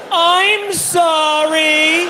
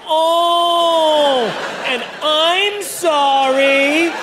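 First: High, very slow, drawn-out "I'm sorry" cry; yelled apology. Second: Mock recap of outbursts. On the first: Retold or imitated. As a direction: wail the apology in embarrassment. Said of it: "So I yelled". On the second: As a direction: replay the embarrassing cries. Recap of his own outbursts.

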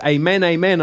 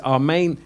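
First: Amen as ay-MEN, twice; long AY opening each Amen; English pronunciation. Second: Amen as ah-MAYN; Greek pronunciation. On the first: Teacher quoting an English translation, Amen said ay-MEN. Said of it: "which says". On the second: Teacher quoting a translation, amen said the Greek way, ah-MAYN. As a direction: open AH, then long MAYN in amen. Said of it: "There's one translation that says amen". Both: Shown as a demonstration.

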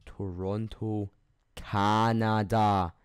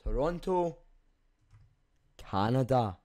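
First: Toronto and Canada drawn out, Canada punched louder; slow, spelled-out correction. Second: Said in the usual way. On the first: Shown as a demonstration. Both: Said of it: "Not America".

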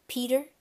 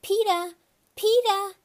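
First: Said in the usual way. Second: "Peeta" called high and loud, ending in "ah" with no r; high, loud childish "Peeta"; toddler calling out. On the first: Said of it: "That's how he says my name". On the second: Acted. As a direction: call "Peeta" like a little kid, dropping the final r. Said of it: "until he called".

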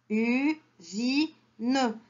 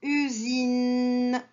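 First: Usine in three beats, u, zi, ne; split into syllables. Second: Said in the usual way. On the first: Shown as a demonstration. Teacher shows where the n is, syllable by syllable. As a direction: sound out Usine with a pause after each syllable. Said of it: "troisième syllabe". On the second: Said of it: "où est-ce que j'entends n".

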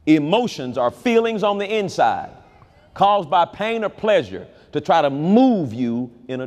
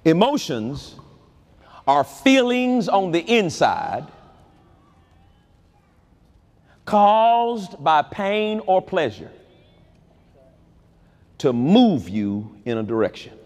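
First: Said in the usual way. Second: Slowed, each word set apart; slow definition. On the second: Shown as a demonstration. Preacher defines emotions for the church, slow and deliberate. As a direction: lay the definition down slowly. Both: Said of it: "let me give you a definition".

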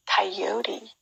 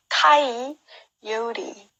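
First: Said in the usual way. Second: 가이요리 slowly, 요 hit hard; stress on 요. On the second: Shown as a demonstration. Teacher showing stress on 요 slowly. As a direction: stretch it out, lean on 요. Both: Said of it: "요의 강세가 있어요".

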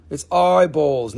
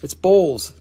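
First: "eyeballs" slow and leaned on to correct; stress on eyeballs. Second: Said in the usual way. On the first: Shown as a demonstration. Host correcting viewers, slowly stressing "eyeballs". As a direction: draw out "eyeballs" so nobody hears balls. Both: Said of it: "not the other balls".

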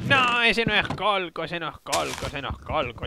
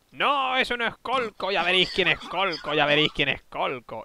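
First: Wicked witch voice, trailing off. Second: Witch voice. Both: Retold or imitated. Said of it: "¿Pero con voz de bruja?".

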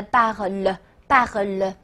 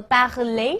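First: Parle slowly, ending on a weak "le"; ending removed. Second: Parler ending in a clear "lé" sound; full infinitive ending. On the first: Teacher showing the bare verb stem, parle with dropped ending. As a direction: say parle without any final é, drawn out. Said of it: "把呃爱和这个统一的词尾给去". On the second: Teacher showing the verb before cutting its ending, parler with full "lé". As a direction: say parler with the final é voiced. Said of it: "剩下的词根叫做". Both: Shown as a demonstration.

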